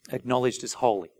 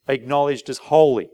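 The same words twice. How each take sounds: First: Acknowledged as holy said softer, gently falling; soft emphatic restatement; softer repeat. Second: Said in the usual way. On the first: Shown as a demonstration. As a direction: quietly repeat Acknowledged as holy to let it land. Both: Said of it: "That's what hallowed means".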